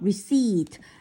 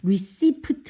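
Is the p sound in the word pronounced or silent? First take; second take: silent; pronounced. First: The p sound is silent in the word. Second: The p sound is pronounced in the word. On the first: The speaker calls it right. "P가 뭐다? 묵음이다" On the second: The speaker calls it wrong. "receipt 아니고"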